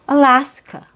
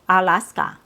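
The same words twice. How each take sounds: First: Only the middle vowel is full; others are reduced. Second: All three vowels are full and equally strong. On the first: The speaker calls it right. "So you open your mouth one time, only for the middle syllable" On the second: The speaker calls it wrong. "You don't need to open your mouth three times"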